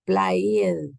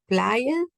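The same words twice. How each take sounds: First: "player" drawn out as if spelled with I, falling; wrong form with I. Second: Said in the usual way. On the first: Shown as a demonstration. Teacher shows the class the form not to use, drawn-out wrong form with I. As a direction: stretch "player" into a slow pla-i-ed, falling. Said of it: "no dije yo play con I". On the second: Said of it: "Miren, aquí".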